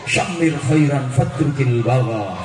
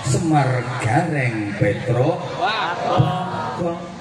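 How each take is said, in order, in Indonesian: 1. Diucapkan dengan bunyi Arab asli. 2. Diucapkan dengan bunyi Jawa yang disederhanakan. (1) "wong asline ku syamir khairan fatrukil bagha" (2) "kena ilate wong Jawa semar gareng petruk"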